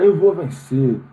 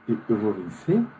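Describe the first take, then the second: First: It sounds confident and enthusiastic. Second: It sounds hesitant and doubtful.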